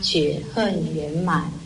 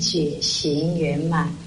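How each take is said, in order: First: The second syllable is said like 'hen'. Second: The second syllable is said like 'xing'. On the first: This is the reading passed down from a regional accent. "因为口音的关系……就念成觉恨圆满" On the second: This is the original reading. "本来是觉行圆满"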